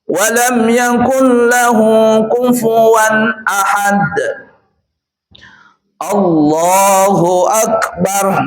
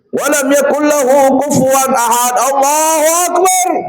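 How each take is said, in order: First: There is a pause before Allahu Akbar. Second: Allahu Akbar follows at once, without pause.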